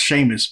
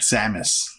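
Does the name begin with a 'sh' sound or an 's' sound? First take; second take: sh; s. First: The name begins with a 'sh' sound. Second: The name begins with an 's' sound. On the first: It follows the Irish reading of the name. "from what I know of of, of Ireland, the Gaelic language, that is pronounced Seamus" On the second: It follows the written spelling of the name. "they're gonna pronounce it Samus, the way it's spelled"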